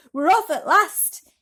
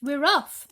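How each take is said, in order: First: Big drawn-out yell, much louder and higher; a creature's slow, booming shout of departure; joyful slow shout. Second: Excited shout, louder and higher; a creature yelling the news to everyone. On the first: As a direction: stretch the cry out in triumph. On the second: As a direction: call it out across the room. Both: A narrator's reading. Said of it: "someone was shouting".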